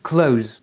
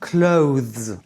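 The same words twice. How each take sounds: First: The word is said quickly and reduced. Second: The word is said slowly with careful articulation. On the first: "Et si tu prononces vite" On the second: "Si tu prononces bien articulé"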